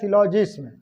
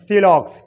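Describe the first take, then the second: First: The word ends with a 'jism' sound. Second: The word ends with a 'lox' sound. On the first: The speaker calls it wrong. "ऐसा लग रहा है जना पढ़ा जाएगा" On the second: The speaker calls it right. "लेकिन ये का है"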